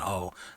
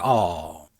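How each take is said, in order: First: The oh sounds soft and sweet. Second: The oh sounds deep and masculine.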